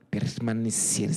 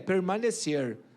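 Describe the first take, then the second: First: It is said with an Espírito Santo accent. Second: It is said with a Minas Gerais accent.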